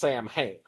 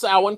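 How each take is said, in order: First: It is said just as it is spelled. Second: It is said differently from its spelling. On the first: The speaker calls it wrong. "it is spelled like it should be pronounced Sam Hain" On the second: The speaker calls it right. "You pronounce it Samhain because it's a Celtic word"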